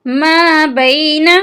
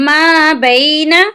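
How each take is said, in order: Both takes have the same delivery.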